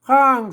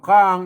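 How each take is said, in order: First: The syllable has a falling tone. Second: The syllable has a low tone. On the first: "เสียงโท" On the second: "เอกนะครับ"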